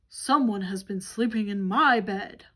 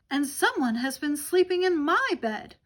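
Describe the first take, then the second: First: It is shouted in a great big voice. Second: It is exclaimed in a medium-sized voice.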